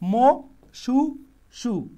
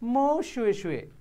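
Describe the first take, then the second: First: The repeated syllables start with a plain 's' sound. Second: The repeated syllables start with an 'sh' sound. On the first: The speaker calls it wrong. "এইভাবে না বলে" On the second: The speaker calls it right.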